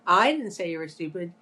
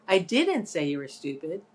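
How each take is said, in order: First: I punched at the start; emphasis on I, as if someone else said it; stress on I. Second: Didn't stressed with a rising tune. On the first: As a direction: hit the word I. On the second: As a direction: lean hard on didn't. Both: Shown as a demonstration. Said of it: "emphasizing all the different words".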